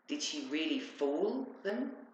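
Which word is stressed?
fool. The stress falls on the word fool. It questions whether they were actually deceived. "They believed her"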